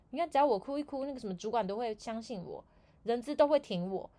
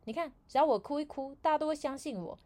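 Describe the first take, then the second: First: Higher gloating repeat, a bit less pushed; a lighter second take of the brag; repeated smug quote. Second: Higher, louder gloating boast; a higher, louder scheming brag; smug coworker quote. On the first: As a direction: say the boast once more, still higher. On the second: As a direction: show off how easy the trick is. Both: Retold or imitated. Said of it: "他跟我们有一个部门的同事说".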